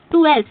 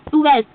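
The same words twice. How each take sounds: The two takes are said the same way.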